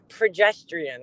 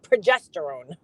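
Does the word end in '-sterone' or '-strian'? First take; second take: -strian; -sterone. First: The word ends with a '-strian' sound. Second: The word ends with a '-sterone' sound. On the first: This imitates a mispronunciation heard from someone else. The speaker calls it wrong. "That's what she was saying" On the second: This is the standard pronunciation. The speaker calls it right. "learn how to pronounce the fucking hormones that you're talking about, which is estrogen and progesterone"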